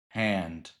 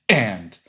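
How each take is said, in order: First: The word begins with a soft breathy onset. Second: The word begins with a sharp glottal catch. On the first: "instead of hand" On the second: "this very sharp and crisp and"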